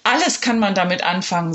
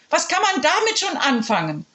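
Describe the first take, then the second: First: Said in the usual way. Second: High, haughty headmistress scoff; scoffing principal. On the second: Acted. Principal scoffing at the children, high and haughty. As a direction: sneer at the idea.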